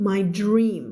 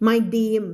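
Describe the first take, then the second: First: DREAM with a clear R after the D; correctly modelled DREAM. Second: DREAM said wrongly as "deem"; mispronounced DREAM, R missing; dropped R. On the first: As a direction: sound the DR cluster in DREAM. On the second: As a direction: leave the R out of DREAM. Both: Shown as a demonstration. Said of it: "No, no".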